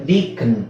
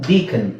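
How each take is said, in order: No difference in how they are said.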